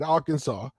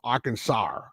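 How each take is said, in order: First: The word is said without an added R sound. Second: The word is said with an added R sound. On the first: "you still say it right" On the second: "They go Arkansas. They they, they throw the R sound in"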